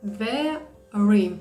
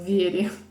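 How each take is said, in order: First: The word has English sounds, including an English r. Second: The word has Ukrainian sounds, including a rolled r. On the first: The speaker calls it right. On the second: The speaker calls it wrong.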